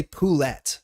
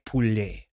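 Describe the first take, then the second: First: Poulette said with the final T sounded hard, po-LET; wrong hard T. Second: Poulet said the French way, silent T, ending on poo-LAY; French soft T. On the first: Streamer showing chat the wrong French way, poulette with a hard T. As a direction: poulette pronounced the wrong way, T clearly spoken at the end. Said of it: "You don't say poulette". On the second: Streamer correcting chat on French, poulet with a silent T. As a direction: poulet with no T at all, ending on the vowel. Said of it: "but you say poulet". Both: Shown as a demonstration.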